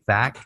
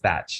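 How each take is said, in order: First: The name ends with a hard k sound. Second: The name ends with a ch sound. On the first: The speaker calls it wrong. "Some people say Thack" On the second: The speaker calls it right. "it's Thatch"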